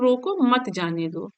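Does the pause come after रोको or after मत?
after रोको. There is a pause right after रोको. Stop him; do not let him go. "पहले रोको, रोको मतलब उसको रोको मत जाने दो"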